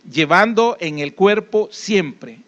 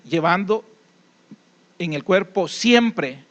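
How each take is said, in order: First: "Llevando" hit hard, then the whole phrase spoken slowly; slow emphatic repeat. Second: "siempre" drawn out slowly and weighted at the end of the phrase; reading the verse with stress on siempre. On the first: (repetición lenta, marcando "Llevando" y "siempre") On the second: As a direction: read the verse and lean on "siempre". ("siempre" alargado y marcado al leer el versículo) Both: Shown as a demonstration. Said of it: "Eso lo he remarcado, esa palabra, siempre".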